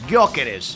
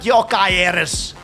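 First: The name begins with a hard G sound. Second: The name begins with a soft Y sound. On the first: This is how the player's name really goes. The speaker calls it right. "The guy is, is Gyokeres" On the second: This is how someone else habitually says it. The speaker calls it wrong. "It's not Yokaeres"

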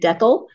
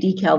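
First: It is said with a Canadian pronunciation. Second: It is said with an American pronunciation. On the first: "they say decal" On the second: "We say decal"

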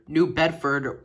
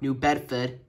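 First: The name is said in a standard accent. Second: The name is said in a local accent.

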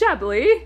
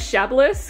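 First: The word ends without any S sound. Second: The word ends with an audible S sound. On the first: The speaker calls it right. "the S was silent, so This is Chablis" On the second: The speaker calls it wrong. "I used to pronounce it as Chablis because I had no idea that the S was silent"

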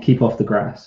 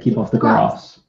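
First: It is said in a more common regional accent. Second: It is said in a posher accent. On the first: This is how the speaker normally says it. "the posher versions of the words that I would use, because I'm from a more common" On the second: This imitates how the other person says it. "you say keep off the grass"

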